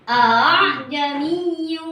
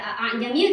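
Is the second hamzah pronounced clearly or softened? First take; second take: softened; clear. First: The second hamzah is softened and eased. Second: The second hamzah is pronounced fully and clearly. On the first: The speaker calls it right. "yang kedua dibaca uh, apa itu uh, tashil" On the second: The speaker calls it wrong. "bukan dibaca"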